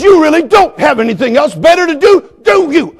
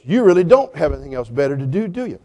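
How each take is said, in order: First: High, loud retold taunt; worked-up retort. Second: Low, cool needling question; dismissive retort. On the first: Pastor reliving the dog owner's retort, loud and worked up. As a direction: fling the question back at high pitch. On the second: Retold or imitated. Dog owner retorting to the pastor, low and dismissive. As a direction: needle him quietly, voice dropped.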